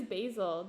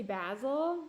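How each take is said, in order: First: Said in the usual way. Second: "basil" said as BAZ-ul, short a; imagined basil pronunciation. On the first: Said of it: "What is basil?". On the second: Shown as a demonstration. Wondering if they say it that way, "basil" as BAZ-ul. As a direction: give "basil" the a of jazz. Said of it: "Do they say basil?".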